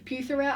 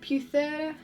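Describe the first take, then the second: First: The name is said with a plain English accent. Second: The name is said with a French-sounding accent. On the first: "I think that's how you pronounce it" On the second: "that sounded really French"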